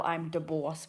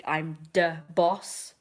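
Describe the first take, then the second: First: Said in the usual way. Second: Slow, drawn-out mock Italian-American "I'm da boss"; silly mafia accent. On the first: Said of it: "how you spell". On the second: Shown as a demonstration. Vlogger showing how she types Don Lino, mock Italian-American. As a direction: ham up the mob boss, slowly. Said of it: "but I do".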